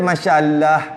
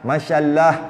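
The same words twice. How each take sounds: First: The L is thin and light. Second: The L is thin and light.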